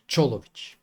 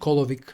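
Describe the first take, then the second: First: The name begins with a ch sound. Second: The name begins with a hard k sound. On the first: The speaker calls it right. "For the record, it's Cholovic" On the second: The speaker calls it wrong. "not Kolovic"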